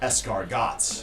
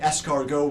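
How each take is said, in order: First: The word is said in an anglicized way. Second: The word is said in a French way. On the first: The guest ordered it this way. The speaker calls it wrong. "in the case of such mispronunciation" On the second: The server repeats the order back to the guest. The speaker calls it right. "We can offer the guest the correct pronunciation"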